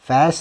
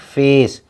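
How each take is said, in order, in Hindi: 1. स्वर छोटा है, cat जैसा। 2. स्वर लंबा है, cake जैसा। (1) "फैस नहीं" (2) "उसकी आवाज़ नहीं उसका नाम पढ़ते हैं"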